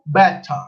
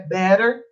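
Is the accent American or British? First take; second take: British; American. First: It is said in a British English accent. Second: It is said in an American English accent. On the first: "inglês britânico" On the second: "Em inglês americano é"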